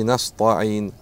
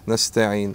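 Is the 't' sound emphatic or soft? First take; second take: emphatic; soft. First: The 't' is said as a hard, emphatic sound. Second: The 't' is said as a soft, plain sound. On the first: The speaker calls it wrong. "Не «наста'ин», как некоторые читают" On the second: The speaker calls it right. "там «та», мягкая"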